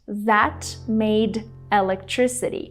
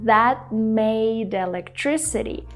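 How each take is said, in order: First: The T at the end of 'that' is fully released. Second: The T at the end of 'that' is stopped. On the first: The speaker calls it wrong. "She doesn't pronounce the T sound fully. She doesn't say that" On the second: The speaker calls it right. "She kind of stops the airflow before she has to say made"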